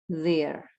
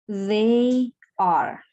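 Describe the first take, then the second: First: The verb is contracted onto the pronoun. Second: The verb is said as a separate word.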